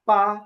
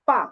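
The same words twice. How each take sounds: First: The syllable is light, with a neutral tone. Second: The syllable has a sharply falling fourth tone. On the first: "এটা এখানে কোনো টোন নাই" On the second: "এখানে হচ্ছে falling tone আছে বা four tone"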